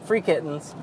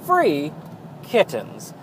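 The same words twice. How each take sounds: First: There is no pause after 'free'. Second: There is a pause after 'free'. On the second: "I can't not read it"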